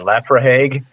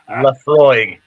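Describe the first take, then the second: First: The word ends with a hard g sound. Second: The word ends in an oy sound, no g. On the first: The speaker calls it wrong. "I had no idea how to pronounce it" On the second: The speaker calls it right. "no, it's Lefroy"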